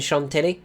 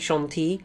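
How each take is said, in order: First: The name is said with an English accent. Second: The name is said with a French accent. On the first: The speaker calls it wrong. "rather than" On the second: The speaker calls it right. "that's how you say it with a French accent"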